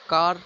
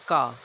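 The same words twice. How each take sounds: First: The final R sound is pronounced. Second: The final R sound is dropped.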